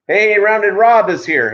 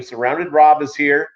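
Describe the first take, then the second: First: High, loud, drawn-out hello to a viewer; excited greeting. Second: Said in the usual way. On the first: Real, not acted. Streamer greeting Rounded Rob as he arrives, loud and excited.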